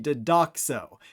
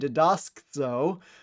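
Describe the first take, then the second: First: The extra s sound drops out before the ending. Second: An extra s sound is packed in before the ending. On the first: The speaker calls it right. "the actual future is going to be" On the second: The speaker calls it wrong. "you can notice how that's hard to say"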